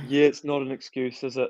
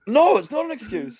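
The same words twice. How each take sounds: First: Imitated meek admission. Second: High, emphatic mock scolding; retold firm rebuke. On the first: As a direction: play him agreeing sheepishly. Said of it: "And he's like". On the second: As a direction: fire back an exasperated agreement.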